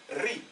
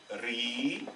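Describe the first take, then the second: First: « Ri » avec un i bref. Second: « Ri » lent, avec un i long. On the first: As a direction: dire « Ri » avec une voyelle courte. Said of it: "Avec la kasra, il va se prononcer". (« Ri » avec voyelle brève) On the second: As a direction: allonger le i de « Ri ». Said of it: "la troisième longue voyelle". (« Ri » avec voyelle longue) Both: Shown as a demonstration.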